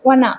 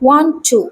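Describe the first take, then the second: First: The words are run together into one short word. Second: The words are said separately in full.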